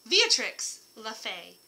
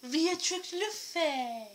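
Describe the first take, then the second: First: Slow grand announcement, louder. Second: Slow, much higher adoring repeat. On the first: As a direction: present the name slowly. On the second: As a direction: sing her name fondly. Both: Shown as a demonstration.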